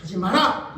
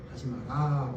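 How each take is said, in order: First: Stern, forceful don't-do-it; firm command. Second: Much softer, lower, gentle; soft mild telling. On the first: Pastor to congregation, showing how to forbid: firm command. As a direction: lay down the order flatly. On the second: Pastor to congregation, the weak way to forbid: soft mild. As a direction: say it meekly, with no force. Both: Shown as a demonstration. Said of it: "이렇게 말해야 안 하지".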